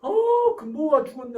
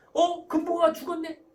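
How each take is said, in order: First: Hammed-up fuss over the child's loss; overindulgent fretting. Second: Loud, high, breezy brush-off; 대수롭지 않게. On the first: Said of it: "내버려둬 스타일 어떻게 합니까?". (호들갑스럽게 높고 크게 안타까워하며) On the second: Acted. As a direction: dismiss the child's loss as nothing. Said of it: "이게 별거 아니다 스타일이에요". (별거 아니라는 듯 높고 크게)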